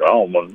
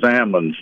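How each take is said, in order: First: The L sound is pronounced. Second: The L sound is left out. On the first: The speaker calls it wrong. "not almonds" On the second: The speaker calls it right. "we knocked the L out of them"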